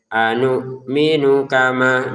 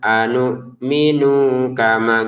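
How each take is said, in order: First: The vowel in 'nu' is short. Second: The vowel in 'nu' is drawn out long. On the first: The speaker calls it right. "anu minunya pendek" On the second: The speaker calls it wrong. "jangan dibaca ... itu jadi ketidaklancaran kalau kita baca panjang"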